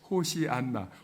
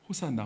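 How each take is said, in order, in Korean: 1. 이 단어는 ho-si-an-na로 발음합니다. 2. 이 단어는 ho-san-na로 발음합니다.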